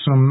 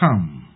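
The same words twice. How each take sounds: First: The vowel is reduced and barely audible. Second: The word is stressed with a full vowel. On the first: It marks an unspecified amount before a mass noun. "the vowel is so obscure that it is barely audible" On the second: It stands alone as a pronoun for part of the apples. "the word some is stressed, and the vowel is made prominent"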